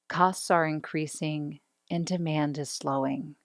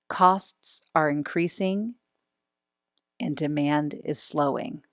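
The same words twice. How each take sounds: First: The tone is warm, kind and friendly. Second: The tone is harsh with a falling intonation. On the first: The speaker sounds friendly and approachable. The speaker calls it right. "by putting a little more kindness in my voice, ... I do sound warmer and friendlier" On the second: The speaker sounds authoritative. The speaker calls it wrong. "my tone's a little harsh. If I'm evaluating my tone, I'm using downward intonation"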